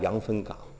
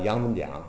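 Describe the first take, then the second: First: The last syllable starts with a hard g sound. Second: The last syllable starts with a soft j sound. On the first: This is the original form of the place name. "羊分桨实际是羊分港" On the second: This is how local people say the place name. "还有一个小地名叫羊分桨"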